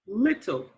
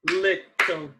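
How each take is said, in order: First: Said in the usual way. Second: LITTLE split into two even beats, lit-tle; "Little" broken in two with a short gap; clapped syllables. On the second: Shown as a demonstration. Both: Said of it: "Let's clap it".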